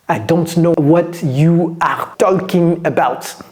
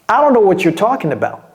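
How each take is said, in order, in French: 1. Chaque mot est prononcé en entier et séparément. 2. Les mots sont réduits et enchaînés rapidement. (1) "on ne parle pas comme ça"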